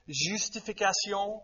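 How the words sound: It is said with a French accent.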